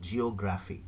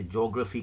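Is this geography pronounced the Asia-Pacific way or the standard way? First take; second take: standard; Asia-Pacific. First: It is pronounced the standard way. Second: It is pronounced the Asia-Pacific regional way. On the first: The speaker calls it right. "it's actually called as geography" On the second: The speaker calls it wrong. "normally in the Pacific region, the Asia Pacific region, they say geography class"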